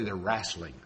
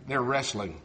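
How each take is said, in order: First: "wrestling" turned into RASS-ling; "wrestling" as low, soft "rasslin'", with a flat a; dialect pronunciation. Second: "wrestling" with a short e, RESS-ling; "wrestling" as RESS-ling, low and soft; standard pronunciation. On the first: Retold or imitated. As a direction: say "wrestling" country-style, with "rass". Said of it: "No, she won't. She'll say". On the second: Shown as a demonstration. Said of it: "If you ever listen to my wife".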